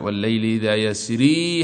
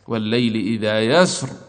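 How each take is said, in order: First: The last word ends with a long 'ee' vowel. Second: The last word ends without the final vowel. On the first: This is the form used when continuing, with the ya kept. "في حال الوصل" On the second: This is the form used when pausing, with the ya dropped. "وفي حال الوقف يحذفونها"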